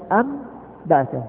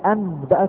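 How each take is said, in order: First: The sound before the b is an m. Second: The sound before the b is a clear n. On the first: The speaker calls it right. "تنطق أنبأك" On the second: The speaker calls it wrong. "لا تنطق أنبأك"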